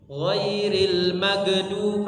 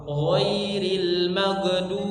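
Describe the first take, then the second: Both takes have the same delivery.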